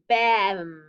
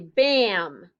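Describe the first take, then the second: First: The vowel sounds like the plain 'a' in 'bat'. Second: The vowel is altered by the following 'm' sound. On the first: The speaker calls it wrong. "That's not really how we say it" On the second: The speaker calls it right. "We say bam. So the M kind of changes the sound of that A"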